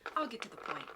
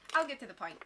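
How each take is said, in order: First: It is read in a grave, serious voice. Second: It is read in a plain, casual voice.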